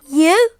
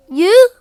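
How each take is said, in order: First: Surprised. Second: Much higher, louder disbelieving shout of "You?"; astonished. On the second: Sister hears Bertie was chosen, shouts "You?" in disbelief. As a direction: yelp "You?" in total disbelief, pitched up high. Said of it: "said Susie". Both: Acted.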